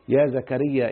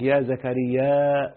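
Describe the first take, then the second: First: The name ends in a short plain vowel. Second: The vowel is stretched and ends in a glottal stop.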